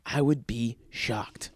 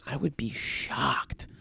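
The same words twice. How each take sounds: First: Said in the usual way. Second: Unvoiced, slow whisper of shocked. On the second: Shown as a demonstration. Doubting the recording still runs, a slow muttered whisper. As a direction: breathe it out as a hushed aside.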